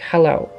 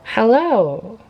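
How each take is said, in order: First: The pitch stays on one tone. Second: The pitch varies and goes up.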